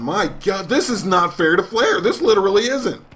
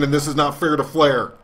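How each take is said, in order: First: Pitched-up commentator protest, rising on Flair; higher announcer outrage. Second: Ringside commentator protesting, steady pitch; announcer outrage. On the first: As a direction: cry foul like an excited announcer. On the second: Gamer as commentator defending Flair, mock outrage. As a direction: complain like a TV wrestling announcer. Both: Acted.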